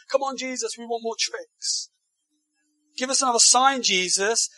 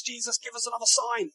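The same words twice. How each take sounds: First: Pushy mock demand. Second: Mock demanding crowd. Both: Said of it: "they say to Jesus".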